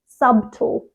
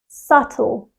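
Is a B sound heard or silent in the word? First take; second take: heard; silent. First: The word is said with a B sound. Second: The word is said with no B sound. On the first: The speaker calls it wrong. "they pronounce the B" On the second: The speaker calls it right. "The B is silent"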